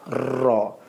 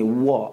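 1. Bunyi r dibuat dengan ujung lidah. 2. Bunyi r seperti w. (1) "ambil hujung lidah kita, kenakan di belakang gigi kita" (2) "Ada yang menyebut huruf ra seperti bunyi V ataupun W"

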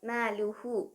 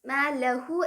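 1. l ന് ശേഷമുള്ള അക്ഷരത്തിന് u സ്വരമാണ്. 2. l ന് ശേഷമുള്ള അക്ഷരത്തിന് a സ്വരമാണ്. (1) "പക്ഷേ അവിടെ മാ ലുഹു ആണ്" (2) "മാ ലഹു എന്നല്ല"

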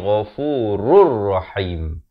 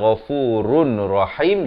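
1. Bunyi n menyatu ke r tanpa bunyi sengau. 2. Bunyi n yang terpisah terdengar sebelum rahim. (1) "jadi ghafurur rahim" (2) "Daripada ghafurun rahim"

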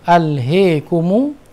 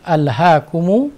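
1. Vokal setelah h condong ke e. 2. Vokal setelah h adalah a terbuka. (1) "beliau membaca dengan imalatul ha" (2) "beliau membaca dengan fathatul ha"

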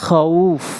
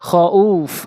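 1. শব্দটি দীর্ঘ 'aw' দিয়ে কেটে শেষ হয়। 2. শব্দটি দীর্ঘ 'aw' দিয়ে কেটে শেষ হয়।

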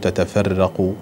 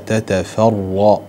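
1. الراء مرققة، وصوتها رفيع. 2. الراء مفخمة، وصوتها ممتلئ. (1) "لا نقول تتفرق يعني يسهل أحيانا الترقيق" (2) "لا بد أن نرفع اللسان في النطق بالراء لأن حينئذ تكون الراء مفخمة"

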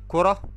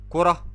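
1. تنتهي الكلمة بصوت الهاء، ساكنة. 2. تنتهي الكلمة بصوت الهاء، ساكنة.

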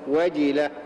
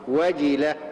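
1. تتبع الجيم كسرة واضحة. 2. تتبع الجيم كسرة واضحة.

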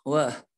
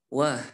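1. Suku kata "wa" berakhir dengan hembusan napas yang terdengar. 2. Suku kata "wa" berakhir dengan hembusan napas yang terdengar.

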